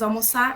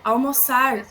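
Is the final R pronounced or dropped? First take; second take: dropped; pronounced. First: The final R sound is dropped. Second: The final R sound is pronounced. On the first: "o apagamento da coda" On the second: "em vez do falante produzir almoçar"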